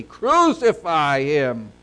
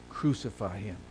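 First: Loud, slow acted crowd cry; emphatic, declaimed outcry. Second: Said in the usual way. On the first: A narrator's reading. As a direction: cry it out forcefully, drawing out each word. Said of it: "they cried out more exceedingly". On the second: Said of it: "And so they cried out".

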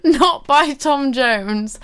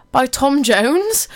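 First: Not stressed, slow and firm. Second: Slow, rising, puzzled ask; puzzled question. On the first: Real, not acted. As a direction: lean on the word not, slowly. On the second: Retold or imitated. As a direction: ask it in disbelief. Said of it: "my friend actually messaged me saying".

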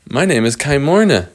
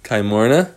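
First: Lightly voiced girl introducing herself; little girl character. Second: Said in the usual way. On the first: Little girl in the cage telling visitors her name, lightly acted. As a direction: announce the name brightly in character, falling at the end.

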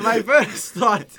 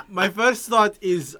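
First: Laughing through the words; giggling restart. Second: Said in the usual way. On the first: Real, not acted. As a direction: laugh as you start the thought. Laughs while restarting his point.

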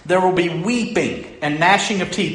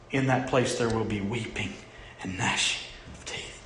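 First: Weeping and gnashing said firmly, louder, stressing gnashing; forceful preaching. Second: Softer, dropping to a whisper on gnashing of teeth; hushed verse. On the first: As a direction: proclaim it with weight, hitting gnashing. Preacher repeats the verse with force. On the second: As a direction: let the verse sink to a grave whisper. Preacher repeats verse, voice sinking. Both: Acted.

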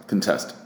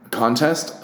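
First: "Contest" said con-TEST, first syllable reduced; stress on second syllable. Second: "contest" said CON-test, first syllable full and stressed. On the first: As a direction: hit the TEST of "Contest", falling. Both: Shown as a demonstration. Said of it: "Just putting emphasis on the wrong syllable".

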